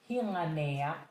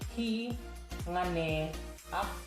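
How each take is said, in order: First: The words run together quickly with a y-glide. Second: The words are said separately at normal speed.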